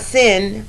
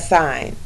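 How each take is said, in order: First: The vowel is short, as in 'pin'. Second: The vowel is long, as in 'pine'. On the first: The speaker calls it wrong. "it's not sin" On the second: The speaker calls it right. "you pronounce it like the word sign"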